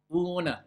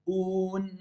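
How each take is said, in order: First: Softer un, "ouu-ne" with a released N; tongue lifted quickly. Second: Softer held Un, "ouun" resting on N; quiet clean stop on Un; no resonance. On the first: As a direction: flick the N of un into a stray vowel. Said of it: "comme il enlève vite sa langue". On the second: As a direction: close Un on a humming N without releasing it. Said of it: "Il y a une différence ou pas?". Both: Shown as a demonstration.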